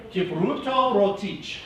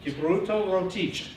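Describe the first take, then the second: First: "Kipruto Rotich" with rolled R's and a final ch, said slowly and higher; rolled R demo. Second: "Kipruto Rotich" with rolled R's and a crisp ch at the end; rolled R demo. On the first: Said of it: "you have to use rolled R's". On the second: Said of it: "it's a ch sound at the very end". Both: Shown as a demonstration.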